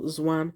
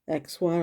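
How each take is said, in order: First: The name begins with a z sound. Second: The name begins with a ks sound. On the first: "or Zwan" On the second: "instead of X one"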